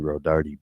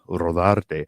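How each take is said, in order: First: The name is said with an anglicized English pronunciation. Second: The name is said with its original Spanish pronunciation. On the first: It is how the community commonly knows the name. "rather than Rodarty" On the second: It honors how the family name is meant to sound. "the way the name is pronounced, though, is Rodarte"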